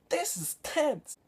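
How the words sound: It is said in an exaggerated imitation of the actor.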